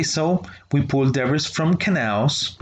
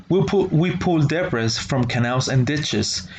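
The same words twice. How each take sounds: First: The voice climbs through "from canals"; rising on canals. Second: Said in the usual way. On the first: Shown as a demonstration. Teacher showing students the rise on "canals" mid-list. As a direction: let "canals" rise to keep the list open. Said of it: "it goes up".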